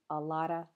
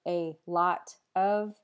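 First: The word 'of' is reduced to a weak vowel. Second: The word 'of' is said in full. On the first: "you'll just hear a lotta" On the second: "instead of a lot of"

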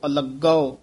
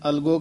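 First: The g sound is held and doubled. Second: The g sound is short and single. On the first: The speaker calls it right. "ਅਲੱਗੋ ਉਚਾਰਨ ਕਰਨਾ ਹੈ" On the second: The speaker calls it wrong. "ਕਈ ਅਣਜਾਣ ਪਾਠੀ ਸਿੰਘ ਅਲਗੋ ਕਹਿ ਜਾਂਦੇ ਨੇ, ਅਲਗੋ ਨਹੀਂ ਕਹਿਣਾ"

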